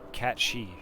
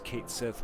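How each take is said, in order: First: The name is said as Cat She. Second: The name is said as Kate Sith. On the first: This is the proper way to say it. The speaker calls it right. "but I want to say it right" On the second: This is how most people say it. The speaker calls it wrong. "Everybody just says Kate Sith"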